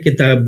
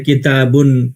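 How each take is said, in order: First: The word ends plainly on the 'b' sound. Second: The word ends with an added 'un' sound. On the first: The speaker calls it right. "किताब बोला जाएगा" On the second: The speaker calls it wrong. "ये बिल्कुल ही गलत तरीका है"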